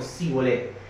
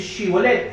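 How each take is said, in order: First: The word begins with an s sound. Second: The word begins with an sh sound. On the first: The speaker is from Ephraim. "en su dialecto, en la forma de hablar del efranita" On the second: The speaker is from Gilead. "no era capaz de decir Shibolet"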